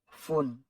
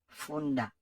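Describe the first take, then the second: First: The word ends in a consonant sound. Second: The word ends in a vowel sound. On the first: The speaker calls it wrong. "toujours dit ou, foun" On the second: The speaker calls it right. "c'est pas foun, c'est funda"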